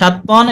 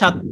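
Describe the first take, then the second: First: The word ends with an n sound. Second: The word ends on a vowel. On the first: The reader keeps going without stopping. "এটা হলো মূল উচ্চারণ" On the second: The reader stops on this word. "থেমে যাওয়ার কারণে আবার হয়ে যাচ্ছে"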